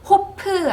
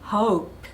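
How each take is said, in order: First: It ends on P plus an extra vowel. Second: It ends on P with no added vowel. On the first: The speaker calls it wrong. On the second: The speaker calls it right.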